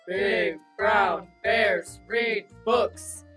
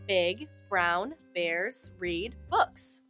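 First: It is said in a big bear voice. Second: It is said in a normal voice.

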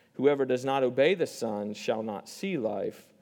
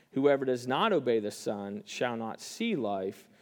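Both takes have the same delivery.

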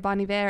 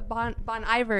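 First: The name is said with a fancy French-like pronunciation. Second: The name is said with a plain English pronunciation. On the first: This is how people who know him say it. "that sounds fancy" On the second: This is how the speaker used to say it. "is what I kept calling it"

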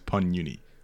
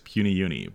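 First: The first part is said as one syllable, pun. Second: The first part is said as two syllables, puny. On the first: The speaker calls it wrong. "I don't think you can fault anybody for pronouncing it as Pun Uni" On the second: The speaker calls it right. "She corrected me and told me that it is Puny Uni"

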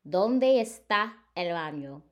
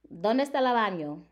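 First: It is said slowly. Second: It is said at normal speed.

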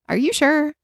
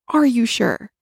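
First: It is asked in a plain, neutral way. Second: It is asked with strong, dramatic feeling.

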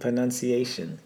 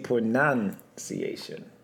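First: The second syllable sounds like 'nun'. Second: The second syllable sounds like 'nounce'. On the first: The speaker calls it right. "It's pronun" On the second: The speaker calls it wrong. "most people say pronunciation"

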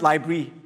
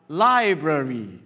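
First: The word is clipped, with syllables squeezed together. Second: The word is said in full, every syllable clear. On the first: The speaker calls it wrong. "very succinct, very economical with our breath" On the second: The speaker calls it right. "a bit more artistic"

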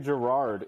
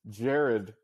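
First: The name is pronounced as Gerard. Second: The name is pronounced as Jared. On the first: The speaker calls it wrong. "don't say Gerard" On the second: The speaker calls it right. "It's Jared Butler, apparently"

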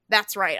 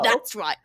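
First: It is said in the speaker's normal voice. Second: It is said in a put-on character voice.

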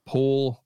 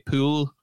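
First: It is said in the speaker's usual accent. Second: It is said with a Scottish-sounding vowel.

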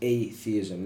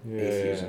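First: It sounds like a separate 'a' plus 'theism'. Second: It is run together in the usual way. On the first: The speaker calls it right. "It has to be atheism, because we call it theism when you believe in God. It's just adding an A prefix" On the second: The speaker calls it wrong. "not atheism"

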